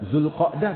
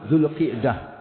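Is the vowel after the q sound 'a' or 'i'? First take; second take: a; i. First: The vowel after the q is 'a'. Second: The vowel after the q is 'i'. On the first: The speaker calls it wrong. "kita sering bacanya Zulqa'dah" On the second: The speaker calls it right. "yang benar yang baca itu Zulqi'dah ... Kasrah kan?"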